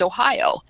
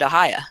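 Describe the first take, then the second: First: It is said with a northern Ohio pronunciation. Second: It is said with the local area's pronunciation. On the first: "I'm originally from the northern part of the state, so it's it's Ohio" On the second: "everybody around here where I live now pronounces it Ohio"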